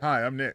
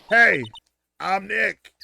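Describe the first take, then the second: First: It is said fairly quietly. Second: It is said loudly.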